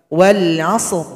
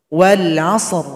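Both takes have the same delivery.

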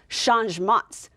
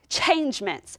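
First: The word is pronounced with French sounds. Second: The word is read as English spelling suggests. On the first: The speaker calls it right. "in the French language, they would pronounce it changements" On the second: The speaker calls it wrong. "it might look like changements"

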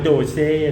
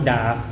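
First: It is said with two syllables, doh-seh. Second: It is said with an ah vowel, daas. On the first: "อย่าอ่านว่าโดเซ่นะฮะ" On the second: "หรือว่าดาสนะฮะ"

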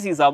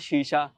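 First: The word begins with a plain 's' sound. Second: The word begins with a 'sh' sound. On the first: This is how the speaker's home region says it. "ਅਸੀਂ ਸੀਸਾ ਬੋਲਦੇ ਆ" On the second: This is the standard form of the word. "ਸ਼ਬਦ ਹੈਗਾ ਸ਼ੀਸ਼ਾ"

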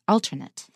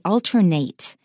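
First: It is pronounced the way the adjective is. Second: It is pronounced the way the verb is. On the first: It means a substitute one. "if it is a 形容词 alternate here, then we pronounce it as it" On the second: It means to take turns. "If it's a verb, it's pronounced differently"

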